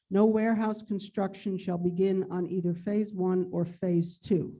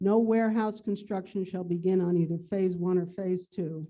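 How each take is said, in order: The two takes are said the same way.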